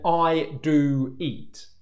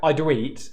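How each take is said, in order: First: The oo vowel is held fully before moving on. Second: The oo vowel slides early into the next sound. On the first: The speaker calls it right. "I'm saying I do eat" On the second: The speaker calls it wrong. "I'm not going I do eat, where my lips are already moving to the next sound"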